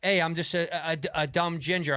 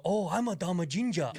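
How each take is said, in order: First: Said in the usual way. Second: A put-on mock Asian accent on "Oh, I'm a dumb ginger". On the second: Shown as a demonstration. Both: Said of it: "I can't go".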